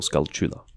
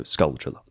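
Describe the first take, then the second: First: The second part is said with a plain 't' sound. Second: The second part is said with a 'ch' sound.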